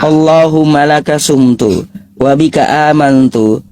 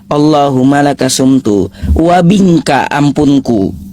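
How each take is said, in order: First: The words are pronounced accurately and clearly. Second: The final words are twisted into different sounds. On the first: It is a sincere recitation for a friend. The speaker calls it right. "kan kayak gitu untuk teman muslimnya. Nggak ada masalah" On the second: It mocks the prayer. The speaker calls it wrong. "Kalau dibacanya kayak gini, ... Ah bahaya tuh"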